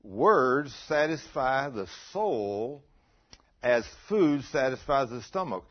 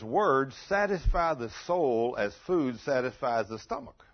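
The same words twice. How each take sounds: First: Very slow, loud, stretched-out verse; deliberate, drawn-out scripture emphasis; slow emphatic repeat. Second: Loud, slowish verse reading; emphatic preacher reading a proverb; scripture reading. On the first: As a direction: drive each word home with pauses. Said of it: "listen to what that's saying". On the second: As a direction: read the verse out firmly, lifting at the end. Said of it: "it says". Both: Real, not acted.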